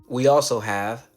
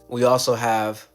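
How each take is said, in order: Both takes have the same delivery.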